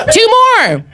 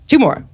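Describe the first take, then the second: First: High, punchy call to the crowd. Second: Said in the usual way. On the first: Real, not acted. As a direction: shout the count out high. Host calls out to audience.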